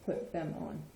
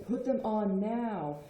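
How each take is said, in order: First: Said in the usual way. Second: Slow, drawn-out insistent order; exasperated command. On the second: Acted. Parent who already told you ten times to put shoes on, exasperated command. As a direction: spell it out after telling them repeatedly. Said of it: "if I've already told you, like, ten times".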